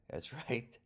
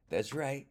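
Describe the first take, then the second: First: Chuckling through the words; amused, laughing delivery. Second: Higher and louder, proud; proud emphatic repeat. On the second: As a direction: punch it out with pride. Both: Real, not acted. Repeats the punchline twice.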